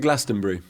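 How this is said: The ending is a reduced British-style '-bury'. "I'd say"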